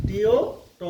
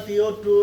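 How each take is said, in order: First: "ত" with a short open aw vowel; phonics reading. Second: "টু" with a long oo vowel; usual word reading. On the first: Teacher makes reading easier for learners, "ত" with open aw. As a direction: sound out "ত" with aw, not oo. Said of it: "চ চাউণ্ডবোৰ পঢ়িবলৈ সুবিধা হোৱাকৈ". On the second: Teacher shows learners the everyday reading, "টু" with oo. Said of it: "কিন্তু এনেই যদি পঢ়িবলৈ যোৱা". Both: Shown as a demonstration.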